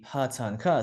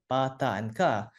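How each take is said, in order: First: The consonants are said the English way. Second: The consonants are said the non-English way. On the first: "It's always going to be pa ta and ka" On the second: "No English word can start with pa ta and ka"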